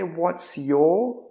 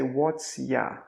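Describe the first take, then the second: First: The word 'your' is said in full. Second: The word 'your' is reduced to 'ya'. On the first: "We don't say what's your" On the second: "we say what's ya"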